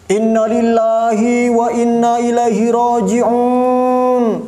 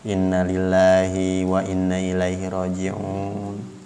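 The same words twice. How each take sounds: First: It is said loudly. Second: It is said softly.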